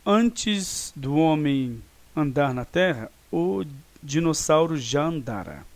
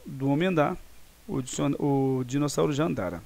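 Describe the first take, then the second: First: Slow, deliberate dictation pace; slow example sentence. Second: Said in the usual way. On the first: Shown as a demonstration. Teacher reads an example sentence slowly to students. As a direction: spell out the example slowly for the class. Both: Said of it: "Então, ele ocorreu antes de outra ação no passado".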